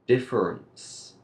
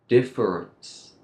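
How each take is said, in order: No difference in how they are said.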